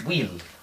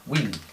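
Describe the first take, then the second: Both takes have the same delivery.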